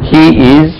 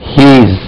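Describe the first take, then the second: First: Two separate syllables, he and is. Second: One short syllable, he's.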